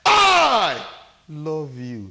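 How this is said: The stress falls on the word I. "The emphasis is on me"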